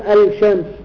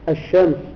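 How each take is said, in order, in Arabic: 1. تُنطق اللام في أداة التعريف بوضوح. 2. تندمج اللام في صوت شين مشدّدة.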